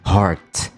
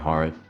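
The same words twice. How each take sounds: First: The final T sound is clearly pronounced. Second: The final T sound is left off. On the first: The speaker calls it right. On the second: The speaker calls it wrong.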